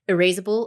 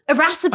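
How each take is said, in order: First: The middle vowel sounds like 'ace'. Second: The middle vowel sounds like 'ass'. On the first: The speaker calls it wrong. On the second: The speaker calls it right.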